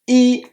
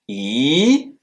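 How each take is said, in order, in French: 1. Le ton reste haut et droit. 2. Le ton monte du milieu vers le haut. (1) "Un ton droit" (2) "un ton qui monte"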